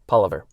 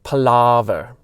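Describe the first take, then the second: First: The A vowel is short and clipped. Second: The A vowel is long and drawn out. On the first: This is how the host says it. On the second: This is how a listener from the UK says it.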